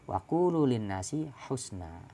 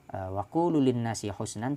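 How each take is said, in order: First: The last word is said husna. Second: The last word is said husnan. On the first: This is another variant reading. "husna kabusra" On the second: This is the usual reading. "tidak dibaca husnan"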